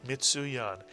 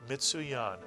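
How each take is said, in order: Both takes have the same delivery.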